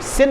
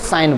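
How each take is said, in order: First: The vowel is a short 'i' sound. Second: The vowel is an 'ai' diphthong. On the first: The speaker calls it wrong. "सिन मत बोलना" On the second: The speaker calls it right. "इसको साइन बोलते हैं"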